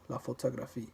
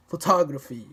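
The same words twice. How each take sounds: First: "la photographie" soft and even on every syllable; unstressed French syllables. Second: "photography" with a loud TOG; stress on second syllable. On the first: French word contrasted with the English, evenly unstressed. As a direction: give each syllable of "la photographie" equal, light weight. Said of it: "you don't stress any particular syllable". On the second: English word contrasted with the French, second syllable stressed hard. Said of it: "say the second syllable with more force". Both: Shown as a demonstration.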